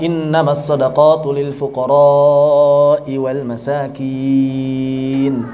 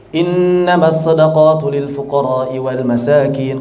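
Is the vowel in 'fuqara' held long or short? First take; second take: long; short. First: The vowel in fuqara is held long. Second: The vowel in fuqara is said short. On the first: This is how the Prophet recited it. The speaker calls it right. "Begitu cara baca Nabi, pakai mad" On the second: This is not how the Prophet recited it. The speaker calls it wrong. "Jadi muridnya baca begitu"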